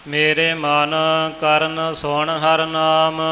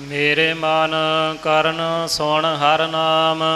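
The two takes are said the same way.

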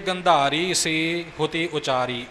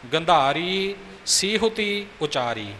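First: The word is split with a break inside it. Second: The word is said joined without a break. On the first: The speaker calls it wrong. "ਇਉਂ ਨਹੀਂ ਕਿ ... ਇਹ ਗਲਤ ਉਚਾਰਨ ਹੋਵੇਗਾ" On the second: The speaker calls it right. "ਸੀਹੁਤੀ ਪਾਠ ਇਕੱਠਾ ਹੈ"

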